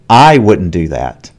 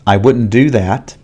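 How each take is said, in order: First: The word 'I' gets extra stress. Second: No word gets any extra stress. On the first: Someone else might do it, but not the speaker. "here there is stress on I" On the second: A plain statement with no contrast. "This is the normal pronunciation"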